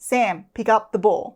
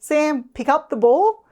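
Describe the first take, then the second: First: The voice is calm and confident. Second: The voice sounds hesitant and unsure. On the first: It shows the instruction is meant. The speaker calls it right. "a calm and confident tone" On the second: It suggests the child may refuse. The speaker calls it wrong. "if your tone sounds uncertain"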